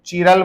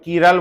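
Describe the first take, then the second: First: The word starts with a 'chee' sound. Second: The word starts with a 'kee' sound. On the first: "कई लोग चीरल बोलते हैं" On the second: "कई लोग कीरल बोलते हैं"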